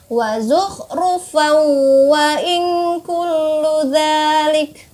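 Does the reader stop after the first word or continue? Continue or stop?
continue. The first word runs straight into the next. "Boleh dilanjutkan"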